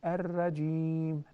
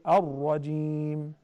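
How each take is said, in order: First: The R is said light and thin. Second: The R is said heavy and full. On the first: The speaker calls it wrong. "that doesn't sound right" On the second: The speaker calls it right. "it must be fattened"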